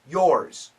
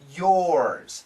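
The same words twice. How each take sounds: First: The word is said short and quick. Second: The word is stretched out and held long. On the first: "Usually, it's quick" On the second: "she says it very long"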